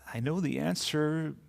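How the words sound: The voice sounds confused and lost. The speaker feels lost. "Or the feeling of being lost"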